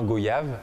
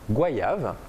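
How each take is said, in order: First: The first syllable sounds like a plain 'go'. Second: The first syllable sounds like 'gwa', as in balayer. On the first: This is the dictionary pronunciation, meant to sound exotic. The speaker calls it wrong. "on a voulu donner un côté exotique aux fruits mmh. en disant goyave" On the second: This is the local, recommended pronunciation. The speaker calls it right. "je vous invite à dire goyave"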